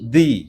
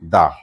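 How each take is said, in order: First: The word ends in an 'ee' vowel. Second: The word ends in an 'uh' vowel. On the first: The next word starts with a vowel. "যদি vowel থাকে কি উচ্চারণ করব" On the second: The next word starts with a consonant. "আর যদি consonant থাকে"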